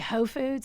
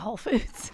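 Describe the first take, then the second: First: The L sound in 'Whole' is dropped. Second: The L sound in 'Whole' is pronounced.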